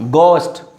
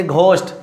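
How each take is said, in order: First: GHOST said slowly as "gost", silent h; hard g straight into the o of ghost; correct plain g. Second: GHOST with an h puffed after the g; wrong pronunciation demo. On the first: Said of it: "it's a ghost". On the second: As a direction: slowly say "g-host" for ghost. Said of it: "Don't say ghost". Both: Shown as a demonstration.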